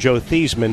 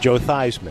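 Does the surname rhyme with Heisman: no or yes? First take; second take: no; yes. First: The surname does not rhyme with Heisman. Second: The surname rhymes with Heisman. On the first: This is the family's original pronunciation. "he went from Joe Theismann" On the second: It was changed to help a Heisman Trophy campaign. "to Joe Theismann"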